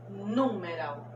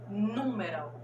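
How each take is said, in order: The two takes are said the same way.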